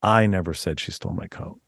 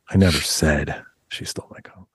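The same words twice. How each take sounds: First: I never said she stole my coat with I leaned on; I said with weight, the rest level; stress on I. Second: Never lifted and rising, the rest lower; never carries the rise; stress on NEVER. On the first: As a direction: open with a pressed I. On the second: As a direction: lean up into never. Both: Shown as a demonstration. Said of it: "people reading it differently".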